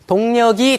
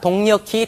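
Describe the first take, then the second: First: The consonant before the ending sounds plain. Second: The consonant before the ending sounds aspirated. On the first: This is a common non-standard pronunciation. The speaker calls it wrong. "가끔 우기시는 분들도 많아요" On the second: This is the standard pronunciation. The speaker calls it right. "표준어가 동력히"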